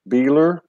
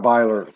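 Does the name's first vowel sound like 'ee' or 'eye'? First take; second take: ee; eye. First: The first vowel sounds like 'ee'. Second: The first vowel sounds like 'eye'. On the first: The speaker calls it wrong. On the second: The speaker calls it right.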